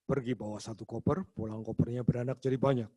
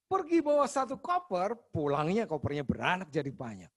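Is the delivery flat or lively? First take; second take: flat; lively. First: It is said in a flat, monotone voice. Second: It is said in a lively, varied voice.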